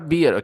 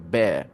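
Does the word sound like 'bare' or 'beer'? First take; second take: beer; bare. First: The vowel sounds like the one in 'beer'. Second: The vowel sounds like the one in 'bare'. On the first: The speaker calls it wrong. "It's not a beer" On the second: The speaker calls it right. "It's a bear"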